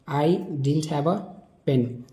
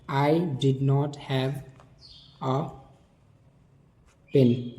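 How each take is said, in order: First: 'Did not' is shortened to one word, didn't. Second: 'Did not' is said as two full words.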